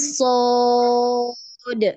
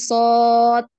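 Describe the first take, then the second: First: The final consonant ends with an echoing bounce. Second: The final consonant ends flat, with no bounce. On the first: The speaker calls it right. "tapi sod, gitu ya" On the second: The speaker calls it wrong. "bukan sod"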